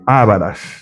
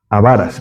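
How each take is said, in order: First: The stress is on the first syllable. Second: The stress is on the second syllable. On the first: The speaker calls it wrong. "no se dice ávaras" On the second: The speaker calls it right. "sino avaras"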